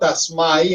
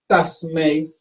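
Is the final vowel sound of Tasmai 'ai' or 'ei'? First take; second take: ai; ei. First: The final vowel sounds like 'ai'. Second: The final vowel sounds like 'ei'. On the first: The speaker calls it wrong. "la gente tiende a leerlo Tasmai en español" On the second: The speaker calls it right. "debemos decirlo es con E I, E. Esto realmente se pronuncia E"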